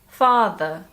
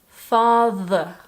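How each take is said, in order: First: The th is light and natural, not exaggerated. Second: The th is strongly exaggerated and drawn out. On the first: "Now let's do the same, but more naturally" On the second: "first we are going to exaggerate the th"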